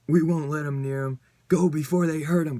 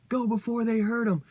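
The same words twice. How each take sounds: First: Louder, barked order to run; urgent shout. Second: Much higher, near-shrieked warning; shrill urgent repeat. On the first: Teammates order Betsy to flee, shouting urgently. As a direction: yell it so they leave now. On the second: Narrator rereads the warning to flee, much higher. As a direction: pitch it way up in alarm. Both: Acted.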